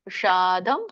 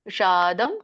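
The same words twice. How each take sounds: The two takes are said the same way.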